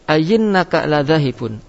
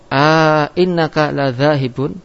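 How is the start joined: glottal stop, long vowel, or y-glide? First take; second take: y-glide; long vowel. First: A y sound replaces the second glottal stop. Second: A long vowel comes between the two glottal stops. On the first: "C berubah menjadi ya" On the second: "tetap dan datang alif di antara dua hamzah"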